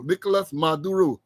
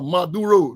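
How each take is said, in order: First: Said in the usual way. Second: Maduro with the stress pushed onto the final syllable, ma-du-RO; stress on last syllable. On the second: Shown as a demonstration. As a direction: lean on the end of Maduro, ma-du-RO. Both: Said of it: "Emphasis on the fourth sy-, um, syllable".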